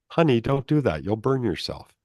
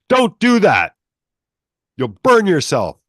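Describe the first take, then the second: First: It is said in a gentle, loving tone. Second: It is yelled in an angry, fearful tone.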